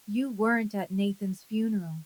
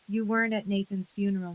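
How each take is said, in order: First: Said slower, each word given more room; measured, slower insistence; slower repeat. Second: Said in the usual way. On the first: A narrator's reading. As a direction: repeat it more slowly and deliberately. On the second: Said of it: "I say it again".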